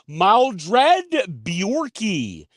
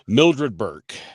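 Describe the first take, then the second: First: The surname is distorted into two syllables. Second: The surname is said as one plain syllable. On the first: The speaker calls it wrong. "I didn't go Mildred Bjorky like you did" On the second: The speaker calls it right. "I actually gave her proper respect and said her name right"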